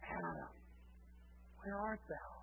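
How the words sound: It sounds sorrowful, like a heartbroken father.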